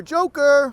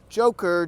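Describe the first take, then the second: First: High, loud call of the name. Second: Said in the usual way. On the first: Real, not acted. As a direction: shout it out like a hail. Calls Joker, rising each time.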